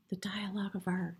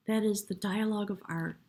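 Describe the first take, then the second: First: "the dialogue of art" whispered softly, with no voice. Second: Said in the usual way. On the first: Real, not acted. Reader naming the tarot card to the viewer, in a reverent whisper. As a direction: hush the card's name reverently.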